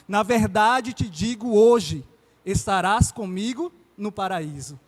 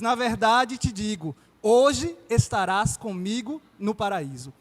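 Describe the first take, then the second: First: The pause comes after the word hoje. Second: The pause comes before the word hoje.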